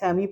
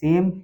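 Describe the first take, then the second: First: It ends with an extra ee vowel sound. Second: It ends on the m with no vowel. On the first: The speaker calls it wrong. "मगर लेमी सेमी पढ़ना हमारा क्या हो जाएगा, गलत हो जाएगा।" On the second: The speaker calls it right. "ई का बिल्कुल उच्चारण साइलेंट रखते हैं।"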